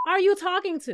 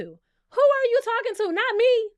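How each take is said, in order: First: Higher, pointed question; indignant are you talking to; sassy indignant. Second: Much higher and louder repeat; louder indignant who are you talking to; outraged shout. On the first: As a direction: press the you, offended. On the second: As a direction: yell it, fully offended. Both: Retold or imitated. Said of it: "The way I would have asked Scotty".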